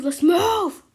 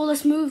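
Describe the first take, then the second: First: Higher, louder urgent shout; shouted command. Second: Urgent call. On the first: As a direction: yell it to get everyone going. Urging again, louder. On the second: Urging friends in game. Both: Real, not acted.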